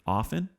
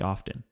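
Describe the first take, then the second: First: The T sound is not pronounced. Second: The T sound is clearly pronounced. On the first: The speaker calls it right. "the T is silent" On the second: The speaker calls it wrong. "Don't say"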